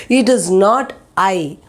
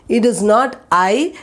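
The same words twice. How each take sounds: No difference in how they are said.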